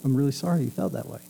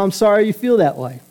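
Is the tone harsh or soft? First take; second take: soft; harsh. First: It is said in a soft, gentle tone. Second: It is said in a harsh, curt tone.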